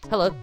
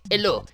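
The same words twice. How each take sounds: First: It is said in the speaker's ordinary accent. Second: It is said with a put-on French accent.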